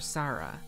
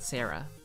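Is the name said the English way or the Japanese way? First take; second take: Japanese; English. First: The name is said with Japanese vowels. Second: The name is said with English vowels. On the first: The speaker calls it right. "It's a Japanese name" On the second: The speaker calls it wrong. "not Sarah"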